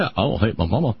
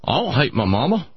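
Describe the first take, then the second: First: Lower, lightly voiced patient accent, "I don't hate my mama" rising on "mama"; the patient's denial, "I don't hate my mama", said lower with a questioning rise; patient's accent again. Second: Lightly voiced Southern-style patient, "I don't hate my mama" with a rise on "don't"; a hint of a folksy patient insisting "I don't hate my mama"; patient's accent. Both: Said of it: "how I'm able to do that accent".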